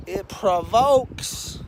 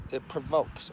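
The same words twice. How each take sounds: First: Stretched slow, loud provokes; drawn-out stress. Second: Said in the usual way. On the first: Shown as a demonstration. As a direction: lean hard on provokes, drawing it out. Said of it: "It provokes, okay?".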